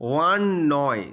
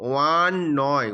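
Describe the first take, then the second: No difference in how they are said.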